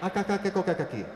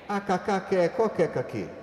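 First: The line is spoken at a fast pace. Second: The line is spoken at a slow pace.

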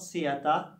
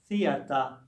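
First: The word starts with a different sound. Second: The word starts with a soft th sound. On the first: The speaker calls it wrong. "not theater" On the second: The speaker calls it right. "The other pronunciation is theater, th, th, theater"

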